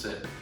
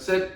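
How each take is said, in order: First: It is said in a soft, plain tone. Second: It is said in a sharp, crisp tone.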